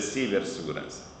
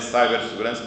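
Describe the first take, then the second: First: The first part is pronounced the Portuguese way. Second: The first part is pronounced like English cyber. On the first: The speaker calls it right. "mas é cibersegurança" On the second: The speaker calls it wrong. "Não é cibersegurança"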